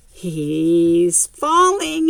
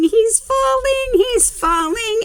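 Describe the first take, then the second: First: Slow, stretched-out worried warning; drawn-out worry. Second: Much higher, louder rising alarm; excited alarm. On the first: Storyteller watching the boy topple, slow and anxious. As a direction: draw it out as he starts to tip. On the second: Storyteller to the kids as the boy tumbles, high excited alarm. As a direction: cry it out as he goes over. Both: Real, not acted. Building suspense over a fall.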